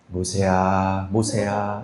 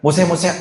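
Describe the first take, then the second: First: It is called out in a warm, tender way. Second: It is called out in a flippant, jumpy way.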